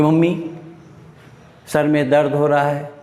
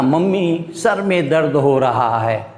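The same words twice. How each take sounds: First: Said in the usual way. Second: Lightly voiced child complaining to mummy; a touch of a sulky kid; a hint of a whiny child. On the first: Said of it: "तो आप इतना". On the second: Shown as a demonstration. Child pleading with mummy, lightly whiny. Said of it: "अब देखो इतना लंबा बोले".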